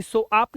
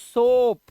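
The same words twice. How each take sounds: First: सोआप split into so-aap; wrong two-vowel सोआप; misreading of soap. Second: सोप with one long o, louder and higher; loud one-vowel सोप; correct soap. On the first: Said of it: "ऐसे सोआप नहीं बोलते". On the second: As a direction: stretch सोप as one syllable. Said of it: "साबुन के लिए क्या बोलते हैं?". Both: Shown as a demonstration.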